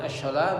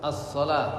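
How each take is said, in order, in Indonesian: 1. Bunyi s-nya ringan dan biasa. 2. Bunyi s-nya berat dan emfatis. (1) "bukan as-salah" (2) "tapi as-sad"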